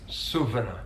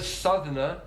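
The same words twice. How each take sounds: First: "Southerner" as "Suvvener"; South Yorkshire "Southerner" with V replacing TH. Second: Said in the usual way. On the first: Retold or imitated. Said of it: "he uses V on the T H". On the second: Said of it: "Instead of Southerner".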